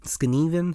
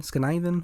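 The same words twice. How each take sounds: First: "Skneven" with a long ee, drawn out; unsure pronunciation. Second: "Skniven" with the middle like "nigh"; retry "Skniven" with a long i, higher; second-guessed pronunciation. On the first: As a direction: try "Skneven" slowly, rhyming the middle with "knee". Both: Real, not acted. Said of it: "whatever the word is".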